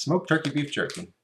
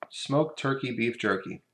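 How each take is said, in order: First: "Smoked turkey beef jerky" tossed off higher, as a tongue twister; tongue twister attempt. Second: "Smoked turkey beef jerky" said slowly, each word spelled out; slow careful. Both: Shown as a demonstration. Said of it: "Say that ten times fast".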